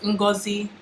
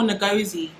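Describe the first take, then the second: First: The name is said in its native way. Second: The name is said in an anglicized way. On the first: The speaker calls it right. "your name is" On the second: The speaker calls it wrong. "No more"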